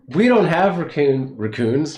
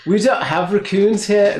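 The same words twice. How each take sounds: First: Put-on playful Kiwi accent, a bit higher; New Zealand accent. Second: Put-on higher, louder Kiwi accent; New Zealand accent. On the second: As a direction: push the Kiwi vowels harder. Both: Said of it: "That's my New, New Zealand accent".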